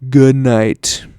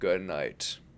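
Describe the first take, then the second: First: It is said at a louder volume. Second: It is said at a quieter volume.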